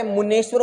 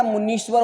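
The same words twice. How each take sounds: First: मुनेश्वर with a long E after the n; मुनेश्वर voiced as mu-NESH-var; wrong vowel. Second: मुनीश्वर with a long "nee" in the middle; मुनीश्वर with long I, not E; correct long I. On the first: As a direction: say मुनेश्वर with "ne" in the middle. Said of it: "मुनेश्वर नहीं होता है". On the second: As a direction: say मुनीश्वर as mu-NEESH-var. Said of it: "मुनीश्वर होता है". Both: Shown as a demonstration.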